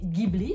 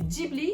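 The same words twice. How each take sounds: First: The word begins with a hard g sound. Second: The word begins with a soft j sound. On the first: It follows the Italian pronunciation. "vous êtes plus proche de la prononciation italienne" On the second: It follows the Japanese pronunciation. "vous êtes exactement comment on le prononce au Japon"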